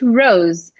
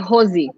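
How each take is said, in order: First: It starts with a round R and ends without a vowel. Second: It starts with an H-like sound and ends in a vowel. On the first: "in English, rose" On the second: "if you say in Portuguese, we would say Rosie"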